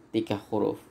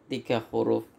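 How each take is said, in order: No difference in how they are said.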